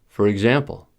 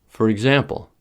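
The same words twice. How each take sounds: Both takes have the same delivery.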